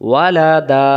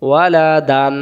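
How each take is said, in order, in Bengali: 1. শব্দটি দীর্ঘ 'a' স্বরে শেষ হয়। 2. শব্দটি 'an' ধ্বনি দিয়ে শেষ হয়। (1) "এক জবর বাদ দিয়ে এক আলিফ টানতে হয়" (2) "তখন দুই জবর উচ্চারণ করা লাগতো"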